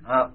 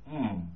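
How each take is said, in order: First: Three separate sounds are said one after another. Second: One hum is made with the lips closed. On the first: The speaker calls it wrong. "you shouldn't say it serially. It isn't ah, oh, mm" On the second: The speaker calls it right. "It's with the lips closed"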